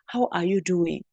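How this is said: The voice falls at the end. The speaker calls it right. "We say"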